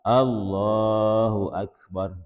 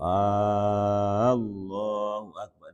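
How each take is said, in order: First: The opening vowel of Allah is kept short. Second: The opening vowel of Allah is drawn out long. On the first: The speaker calls it right. "Terus yang betul gimana?" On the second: The speaker calls it wrong. "Nggak jadi kalau Allahu Akbar itu nggak jadi"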